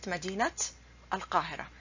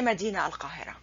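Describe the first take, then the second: First: مدينة said "madinat", final t clearly sounded; correct linked pronunciation. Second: مدينة said "madina" without final t, running quickly into القاهرة; wrong pronunciation, t dropped. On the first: Teacher shows the correct way, مدينة pronounced "madinat". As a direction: sound the t ending of مدينة, then القاهرة set apart. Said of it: "The correct way to pronounce it". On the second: Teacher warns students off the error, مدينة pronounced "madina". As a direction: drop the t of مدينة before القاهرة. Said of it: "you don't say". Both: Shown as a demonstration.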